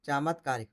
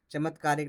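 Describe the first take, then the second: First: चामत्कारिक said with a long first aa, chaa-mat-kaa-rik; चामत्कारिक with a long opening aa, given as the correct form; correct spelling read out. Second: चमत्कारिक said with a short first a, cha-mat-kaa-rik; चमत्कारिक with a short a in the first syllable, marked as the wrong form; wrong spelling read out. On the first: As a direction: stretch the aa in चामत्कारिक. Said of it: "चामत्कारिक होता है". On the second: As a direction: read चमत्कारिक as written, short opening vowel. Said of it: "चमत्कारिक नहीं". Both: Shown as a demonstration.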